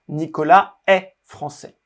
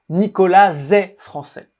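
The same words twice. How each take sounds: First: No linking sound follows Nicolas. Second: A z sound links Nicolas to the next word. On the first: The speaker calls it right. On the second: The speaker calls it wrong.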